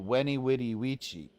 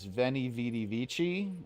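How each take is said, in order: First: The first two words begin with W sounds. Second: The first two words begin with V sounds. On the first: The speaker calls it right. "is actually ... That's how it's pronounced" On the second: The speaker calls it wrong. "that common phrase that everyone knows"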